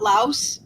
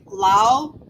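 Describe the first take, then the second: First: The final S is sounded. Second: The final S is silent. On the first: The speaker calls it wrong. "it's not Laos" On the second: The speaker calls it right. "That S is a silent S"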